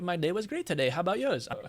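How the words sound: It is said with a put-on foreign accent. "what if I just said it with a with with an accent?"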